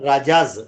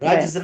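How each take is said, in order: First: It is said as two syllables, ra-jaz. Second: It is said as one syllable, a doubled j. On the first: The speaker calls it right. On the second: The speaker calls it wrong. "रज्ज नहीं"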